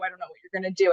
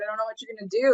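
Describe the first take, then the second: First: The voice sounds wary and fearful. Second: The voice sounds playful and excited. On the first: The dog wants the child to stay away. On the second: The dog wants to play. "all right, let's play, right?"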